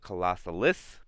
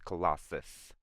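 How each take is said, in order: First: The name is said with four syllables. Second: The name is said with three syllables. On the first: The speaker calls it wrong. "I said that name wrong for a while. They call it Colossalis" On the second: The speaker calls it right. "but it's Colossus"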